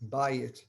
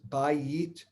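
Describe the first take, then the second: First: The vowels are reduced and run together. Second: Both vowels are pronounced fully and clearly. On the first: "it usually it actually comes out of people's mouths" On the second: "It's actually hard to say bayit"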